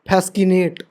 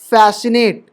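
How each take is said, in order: First: A k sound is heard after the s. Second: No k sound is heard after the s. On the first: The speaker calls it wrong. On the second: The speaker calls it right.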